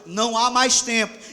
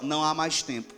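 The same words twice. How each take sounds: First: It is said with strong, earnest conviction. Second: It is said in a plain, ordinary way. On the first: The speaker calls it right. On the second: The speaker calls it wrong.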